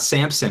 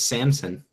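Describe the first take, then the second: First: A p sound is heard before the s. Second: No p sound is heard before the s. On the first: The speaker calls it wrong. "it's not Samson" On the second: The speaker calls it right. "it's Samson"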